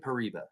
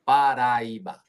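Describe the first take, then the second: First: The word is shortened, with the middle vowels squeezed. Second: The word is said in full with a rolled R. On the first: "Pariba is kind of like the it's the short way to say it" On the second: "But it is Paraíba tourmaline"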